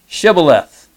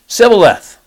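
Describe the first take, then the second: First: The word begins with a 'sh' sound. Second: The word begins with an 's' sound. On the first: The speaker is one of the group's own people. The speaker calls it right. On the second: The speaker is exposed as an outsider. The speaker calls it wrong. "Notice the H is missing in the word"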